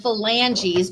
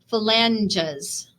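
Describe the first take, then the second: First: The E is said as a long vowel. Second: The E is said as a short vowel. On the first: "I make it a long vowel" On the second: "They make the E um, a short vowel"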